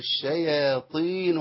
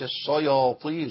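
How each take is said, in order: First: The sh and y are light, not thickened. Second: The sh and y are thickened and heavy. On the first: The speaker calls it right. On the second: The speaker calls it wrong.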